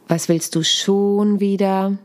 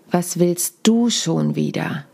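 First: SCHON stretched long, slow sentence; slow delivery with the weight on "schon"; stress on schon. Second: DU stretched and stressed, slow sentence; slow delivery with the weight on "du". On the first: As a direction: draw out and stress the word schon. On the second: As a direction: lean hard on the word du, slowly. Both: Shown as a demonstration. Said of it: "die Betonung einzelner Worte verändern".

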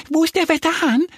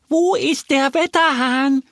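First: Quick, very high squeaky question; excited little duck. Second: A bit louder. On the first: Little duck asks the hens for the weathercock, excited. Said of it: "fragt Annie aufgeregt die Hühner". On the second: Little duck asks hens who ignored her, more insistent. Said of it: "fragt Annie etwas lauter". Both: A narrator's reading.

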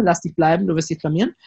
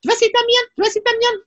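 First: Said in the usual way. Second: Sehr hoch gepiepst wie doppelte Geschwindigkeit; verzerrte Stimme. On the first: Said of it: "dann nimmt man diese Stimme". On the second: Shown as a demonstration. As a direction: spiel „blamieren“ wie ein schnell abgespieltes Band. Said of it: "so wie doppelte Geschwindigkeit oder so". („Du wirst dich blamieren“ sehr hoch wie im Schnelldurchlauf)

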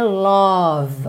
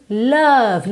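First: "love" with a clearly drawn rounded O; wrong rounded O. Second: "Love" with a neutral uh vowel; indefinite vowel. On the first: Teacher shows how not to say "love", exaggerated O sound. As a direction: mispronounce "love" with a full O vowel. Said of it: "lembra que não é love". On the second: Teacher corrects the vowel in "Love", indefinite uh sound. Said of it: "É um som mais A, mais indefinido". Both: Shown as a demonstration.

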